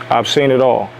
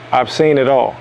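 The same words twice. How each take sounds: The two takes are said the same way.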